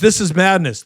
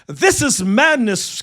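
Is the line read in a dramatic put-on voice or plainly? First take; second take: plainly; dramatic. First: It is read in the speaker's ordinary voice. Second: It is read in a theatrical, medieval-style put-on voice.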